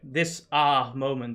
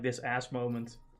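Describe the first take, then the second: First: The middle word ends without an s sound. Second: The middle word ends with an s sound. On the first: It is the newer slang way to say it. "instead of saying ass, they say ah" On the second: It is the older, usual way to say it. "instead of like this ass moment"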